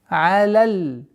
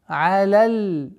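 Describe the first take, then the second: No difference in how they are said.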